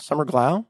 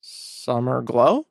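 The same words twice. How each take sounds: First: "Glau" said to rhyme with cow, rising like a question; "Summer Glau" with glau like how, asking; corrected name. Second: "Glow" said to rhyme with snow, slowly and questioning; tentative "Glow", long o like glow; unsure name. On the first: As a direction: land on "Glau" with the ow of now. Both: Shown as a demonstration.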